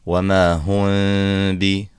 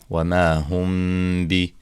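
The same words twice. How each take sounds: First: The lips open, letting air out on the m. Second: The lips stay lightly closed on the m. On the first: The speaker calls it wrong. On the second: The speaker calls it right.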